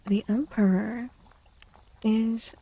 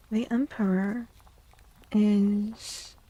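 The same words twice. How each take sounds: The two takes are said the same way.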